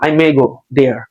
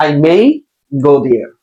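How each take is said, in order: First: MAY said short as "meh". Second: MAY held out as "mei" with its glide; full AY sound. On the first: Teacher showing students the wrong way, MAY as "meh". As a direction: drop the glide from MAY. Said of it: "অনেকে মে বলবে". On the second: Teacher correcting the sentence, MAY with full glide. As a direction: stretch MAY into a clear "mei". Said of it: "অনেকে মে বলবে, না". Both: Shown as a demonstration.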